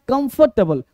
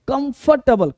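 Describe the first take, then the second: The two takes are said the same way.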